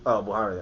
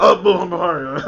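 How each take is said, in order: First: Said in the usual way. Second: Mock sneeze hiding a name, through laughter; louder, higher, spluttered like a pretend cough; fake sneeze. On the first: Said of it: "You said what?". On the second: Host imitating co-host passing a name off as a fake sneeze. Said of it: "I was just sneezing. I was just coughing".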